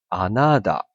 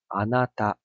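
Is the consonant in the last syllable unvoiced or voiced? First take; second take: voiced; unvoiced. First: The last syllable has a fully voiced d sound. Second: The last syllable has a light, unvoiced t sound. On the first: The speaker calls it wrong. "如果你真的是念浊音的话，你会变成是あなた" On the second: The speaker calls it right. "我们喉咙还是会震动嘛，只是说它震动幅度比较小"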